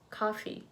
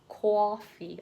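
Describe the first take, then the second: First: The first vowel is an open 'ah' sound. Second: The first vowel is a rounded 'aw' sound. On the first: This is how people on the West Coast say it. "West Coast probably coffee" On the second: This is how people on the East Coast say it. "coffee on the East Coast"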